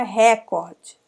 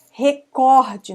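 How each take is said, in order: First: Recorde with open RÉ first, lighter cor; stress on RE. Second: Recorde with COR strong, falling after; stress on COR. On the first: Teacher showing the mistake, recorde stressed on RE. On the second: Teacher giving the Portuguese form, Recorde stressed on COR. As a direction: say Recorde as re-CÓR-de. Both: Shown as a demonstration. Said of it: "não é recorde".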